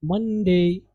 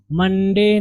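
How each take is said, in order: First: मंडे ending in a gliding "day"; "MUN-dey-i" for मंडे; correct pronunciation. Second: मंडे slowly, ending in a plain "de"; pure e closing slow मंडे; local mistaken pronunciation. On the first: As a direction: glide from e to i at the end of मंडे. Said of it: "तो आप पढ़ेंगे". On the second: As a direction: say मंडे with no glide at the end. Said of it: "नहीं पढ़ेंगे". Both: Shown as a demonstration.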